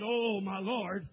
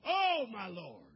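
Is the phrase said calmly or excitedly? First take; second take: calmly; excitedly. First: It is said quietly, in a low-key way. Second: It is said loudly, as an exclamation. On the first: The speaker is not much moved. The speaker calls it wrong. "I don't believe he said it just in a low-key way" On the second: The speaker is caught off guard and astonished. The speaker calls it right. "I think he said it with great exclamation"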